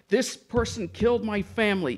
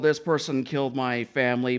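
First: It is said forcefully, with strong energy and feeling. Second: It is said flatly, without energy or feeling. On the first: The actor truly feels the loss and anger. The speaker calls it right. "you got to put it like" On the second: The actor does not really feel the loss. The speaker calls it wrong. "It's like, oh"

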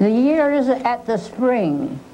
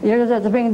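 First: The line is recited slowly and carefully. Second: The line is rattled off quickly and run together. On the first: The speaker calls it right. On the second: The speaker calls it wrong.

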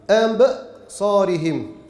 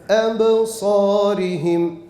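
First: The bounce ends in a glottal catch before the next word. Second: The bounce flows into the next word without a catch. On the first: The speaker calls it wrong. "sonuna bir hemze koyarmışçasına" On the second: The speaker calls it right. "Embe sarihim desek kalkaleyi yapmış oluruz"

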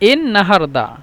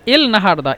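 First: The first word ends with an n sound. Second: The first word ends with an l sound. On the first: Most people say it this way. "এন নাহারদাই বেশি মানুষ বলে" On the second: Most people do not say it this way. "এল নাহারদা বেশিরভাগ বলে না"

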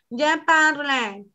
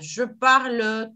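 First: It is spoken with a Spanish-style pronunciation. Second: It is spoken with a French pronunciation. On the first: The speaker calls it wrong. "jamás nos va a salir la pronunciación" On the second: The speaker calls it right. "checa mi boca y checa tu boca"

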